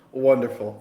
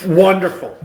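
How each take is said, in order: First: Said in the usual way. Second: Loud, high delighted cheer. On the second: Real, not acted.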